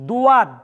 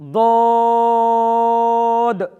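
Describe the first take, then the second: First: A w-glide follows the first consonant. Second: A long, soft vowel follows without any glide. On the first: The speaker calls it wrong. "ভুল উচ্চারণ" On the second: The speaker calls it right. "মাঝখানে লম্বা, একটু নরম করে ঠিক এইভাবে"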